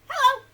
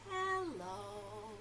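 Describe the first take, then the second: First: It is said very fast. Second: It is said very slowly.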